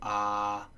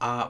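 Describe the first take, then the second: First: The vowel is held and dragged out. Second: The vowel is said short and clipped. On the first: "is a long vowel" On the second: "without it would be a short vowel"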